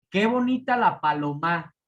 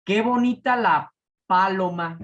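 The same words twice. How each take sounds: First: PALOMA as palo-MÁ within the phrase; stress on last syllable. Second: PALOMA as PÁ-loma, first syllable punched; stress on first syllable. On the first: Teacher testing aguda in a sentence, final-syllable stress. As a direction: put the force on the final MA of paloma. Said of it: "Si la palabra fuera aguda". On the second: Teacher testing esdrújula in a sentence, first-syllable stress. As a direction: hit the PA of paloma hard, then drop. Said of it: "Esdrújula. Si fuera esdrújula". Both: Shown as a demonstration.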